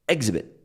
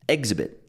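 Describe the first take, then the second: First: The stress is on the first syllable. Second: The same.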